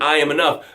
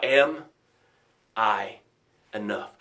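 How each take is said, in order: First: Said in the usual way. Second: Low, halting question fading softer; self-doubting question. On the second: Acted. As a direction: let the doubt sink in, word by word, dropping away. Labels turn affirmation into doubt.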